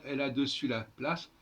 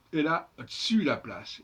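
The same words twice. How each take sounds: First: "dessus" in two syllables, de-ssus; e of "dessus" sounded. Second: "dessus" squeezed to one syllable, d'ssus; elided e in "dessus". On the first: Teacher quotes the line to be changed, "dessus" as full de-ssus. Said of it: "et pas dessus la place". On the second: Teacher corrects the verse, "dessus" said as d'ssus. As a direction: drop the e of "dessus" so it runs d'ssus. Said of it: "Il faut dire". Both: Shown as a demonstration.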